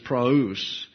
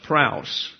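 First: The a and u are two separate syllables. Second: The a and u blend into one diphthong. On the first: The speaker calls it right. "it's praus, because of the two dots over the upsilon" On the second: The speaker calls it wrong. "If it were a diphthong, it would be pronounced praus"

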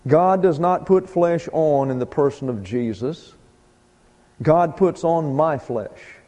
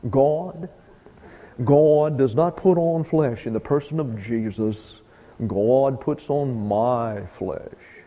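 First: It is read in a plain voice. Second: It is read in a dramatic TV-style voice.

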